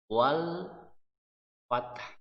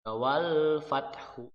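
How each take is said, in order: First: The phrase ends on a consonant with no vowel. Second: The phrase ends with an added u vowel. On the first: The speaker calls it right. "itu cara membacanya" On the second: The speaker calls it wrong. "tidak seperti itu"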